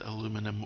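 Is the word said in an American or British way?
American. It is said the American way, aluminum.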